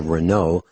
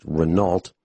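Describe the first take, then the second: First: Said in the usual way. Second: "Renault" with the final L and T sounded; alternative pronunciation. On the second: Shown as a demonstration. Explaining a car's transmission, alternative anglicized pronunciation of Renault. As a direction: say "Renault" as spelt, ending in -nault. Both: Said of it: "also pronounced Renault".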